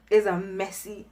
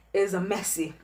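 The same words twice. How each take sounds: The two takes are said the same way.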